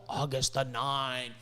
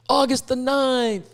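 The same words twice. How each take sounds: First: Said in the usual way. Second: August the ninth, drawn out slowly, higher and louder; emphatic slow repeat. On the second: Real, not acted. Telling viewers the border reopening date, slow and emphatic.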